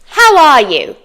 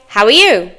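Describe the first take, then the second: First: Each word is said separately and fully. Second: The words run together in a reduced form.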